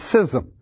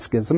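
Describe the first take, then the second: First: The C is silent, starting with an s sound. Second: The C is pronounced as a k sound. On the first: The speaker calls it right. "it's schism. The C is silent" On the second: The speaker calls it wrong. "It's not schism"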